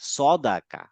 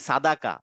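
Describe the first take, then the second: First: The first vowel is dark, heavy and rounded. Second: The first vowel is light, open and plain. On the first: The speaker calls it right. "সাদাকা না সদাকা, কারণ হচ্ছে এখানে সদ আছে" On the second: The speaker calls it wrong. "অনেকে সদ ফাথা সা বলে ফেলে, যেমন আমরা বলি কি সাদাকা"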